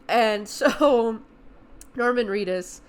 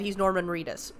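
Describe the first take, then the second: First: Laughing. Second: Said in the usual way. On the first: Real, not acted. Actor reveal, laughed over.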